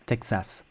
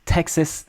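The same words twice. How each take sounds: First: Texas softly as tek-SAS; even, softer Texas with full A; French pronunciation. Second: Texas pitched up, as TEK-sus; strong TEX, crushed A in Texas; English pronunciation. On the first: Teacher repeats the contrast, French pronunciation of Texas. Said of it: "in French we say Texas". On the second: Teacher repeats the contrast, English pronunciation of Texas. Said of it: "in English you say Texas". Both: Shown as a demonstration.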